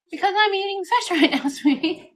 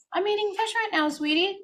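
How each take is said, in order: First: High, quicker and laughing through it; laughing mom voice. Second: Put-on high, sing-song mommy tone to a toddler; sweet mom voice. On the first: Retold or imitated. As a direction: repeat the excuse, giggling. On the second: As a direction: gently turn down the kid's food, sugary. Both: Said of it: "And I'm like".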